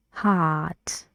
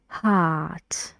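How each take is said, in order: First: Heart with an open ah vowel and neutral lips; careful model of heart; model word heart again. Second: Heart with an open ah vowel and neutral lips; careful model of heart; model word heart. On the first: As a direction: repeat heart with the back of the tongue up. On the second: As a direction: say heart with the back of the tongue up. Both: Shown as a demonstration. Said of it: "Now about the new sound".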